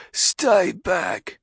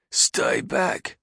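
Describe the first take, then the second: First: Louder gruff guard shout. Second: High, breathy gruff guard. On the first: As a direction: yell it through the door. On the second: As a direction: bark it through the door. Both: Acted. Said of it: "a gruff voice said".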